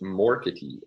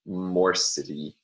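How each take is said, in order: First: The consonant before the ending is a hard k. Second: The consonant before the ending is a soft s. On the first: The speaker calls it right. "would be pronounced as morkity" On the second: The speaker calls it wrong. "morcity sounds indeed rather strange"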